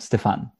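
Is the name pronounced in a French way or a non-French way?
French. The name is said with a French pronunciation. The speaker calls it wrong. "Stefan would be if I were French"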